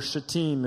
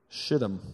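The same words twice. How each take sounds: First: The word is said with a French-style pronunciation. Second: The word is said with plain English pronunciation.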